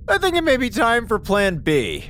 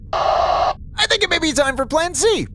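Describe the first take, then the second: First: Said in the usual way. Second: Higher, more urgent, on edge; rising alarm. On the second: Acted. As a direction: let the worry climb up. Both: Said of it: "time to panic".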